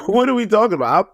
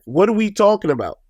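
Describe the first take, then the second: First: Laughing through the question, pitched up. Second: Said in the usual way. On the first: Real, not acted. Retelling the muffin fight to viewers, laughing in disbelief. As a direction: crack up while repeating it.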